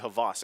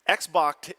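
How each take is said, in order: First: The name sounds like 'Havas'. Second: The name sounds like 'Xbox'. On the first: This is the pronunciation the player himself gave. "it's actually Havas" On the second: This is the reading suggested by the spelling. "is how it looks face value"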